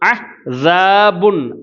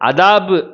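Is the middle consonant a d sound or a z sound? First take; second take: z sound; d sound. First: The middle consonant is a z-like sound. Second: The middle consonant is a plain d sound. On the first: The speaker calls it right. "ஜா போடணும்" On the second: The speaker calls it wrong. "அதாபு அப்படின்னு சொல்லி தால் போட்டு உச்சரிக்க கூடாது"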